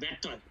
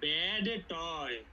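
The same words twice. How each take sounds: First: The d of bad is dropped before toy. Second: The d of bad is clearly pronounced. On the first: This is how American speakers say it. "আমেরিকানরা বলবে ব্যাড টয়। ডি is gone." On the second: This is how Bengali speakers say it. "আমরা যদি বাঙালিরা উচ্চারণ করি তাহলে বলবো"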